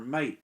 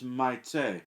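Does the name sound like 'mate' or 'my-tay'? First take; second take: mate; my-tay. First: It is said as one syllable, like 'mate'. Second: It is said as two syllables, like 'my-tay'. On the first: The speaker calls it wrong. "mispronounced in my head as I read the book" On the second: The speaker calls it right. "it seems like that would be pronounced something to the effect of Maite"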